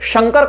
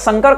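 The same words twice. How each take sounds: First: The word begins with a palatal 'sh' sound. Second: The word begins with a dental 's' sound. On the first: It means Shiva, the bringer of welfare. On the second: It means a hybrid mixture.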